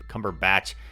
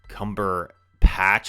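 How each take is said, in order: First: The last part starts with a B sound. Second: The last part starts with a P sound. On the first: The speaker calls it right. "everyone corrected me. It's" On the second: The speaker calls it wrong. "I said it with a P last video"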